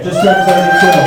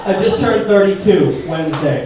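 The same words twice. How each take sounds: First: Louder repeat. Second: Said in the usual way. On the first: Real, not acted. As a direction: shout the age again.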